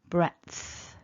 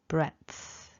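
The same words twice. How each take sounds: First: A voiceless T sound comes before the th. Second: A voiceless T sound comes before the th.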